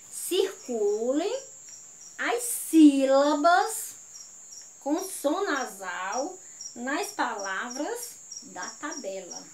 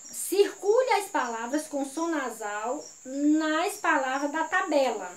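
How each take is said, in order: First: Slow, deliberate dictation pace; measured teacher's dictation with pauses; slow re-reading. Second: Said in the usual way. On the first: Shown as a demonstration. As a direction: spell out the instruction unhurriedly, phrase by phrase. Slow, corrected re-reading of instruction.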